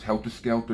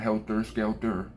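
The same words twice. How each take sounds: First: The last word ends with an open 'ah' sound. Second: The last word ends with an 'er' sound. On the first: The speaker calls it right. "It's A H" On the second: The speaker calls it wrong. "not E R"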